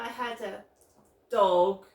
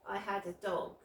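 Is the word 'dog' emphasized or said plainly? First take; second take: emphasized; plainly. First: The word dog is emphasized to stand out. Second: The word dog is said plainly.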